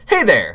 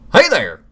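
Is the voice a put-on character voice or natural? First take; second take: natural; character. First: It is said in the speaker's natural voice. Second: It is said in a put-on character voice. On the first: "We're just gonna do my regular voice"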